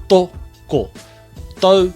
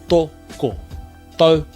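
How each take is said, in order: The two takes are said the same way.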